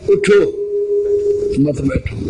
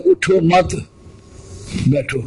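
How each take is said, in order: First: اٹھو alone with a falling stop, pause, then مت بیٹھو; pause after اٹھو. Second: اٹھو مت said together, pause, then بیٹھو; pause after مت. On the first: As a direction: break right after اٹھو so it becomes get up. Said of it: "اگر وقف پہلے کر لیتا ہے". (اٹھو پر وقف، پھر مت بیٹھو) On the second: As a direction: join اٹھو مت, break before بیٹھو as an order to sit. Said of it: "آپ کہتے ہیں". (اٹھو مت کے بعد وقف، پھر بیٹھو) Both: Shown as a demonstration.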